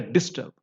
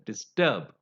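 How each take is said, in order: First: The stress is on the first syllable. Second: The stress is on the last syllable. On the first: The speaker calls it wrong. "I didn't say disturb" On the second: The speaker calls it right. "I said disturb, ... they are stressed on the last syllable"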